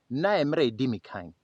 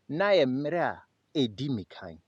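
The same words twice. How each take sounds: First: It is said at normal speed. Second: It is said somewhat slower.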